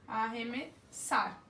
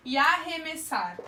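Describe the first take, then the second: First: Arremessar drawn out to show the double R as one sound; slow teacher demo. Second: Said in the usual way. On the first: Shown as a demonstration. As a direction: stretch Arremessar slowly for the class. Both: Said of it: "Duas letras, um fonema".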